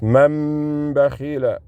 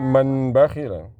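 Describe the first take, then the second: First: The n sound merges into the following b. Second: The n sound is pronounced clearly before b. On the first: The speaker calls it right. "That's how you integrate it. See the noon is silent" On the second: The speaker calls it wrong. "Not man bakhila"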